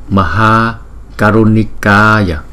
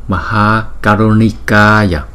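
The two takes are said the same way.

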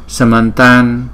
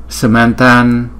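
The two takes are said the same way.

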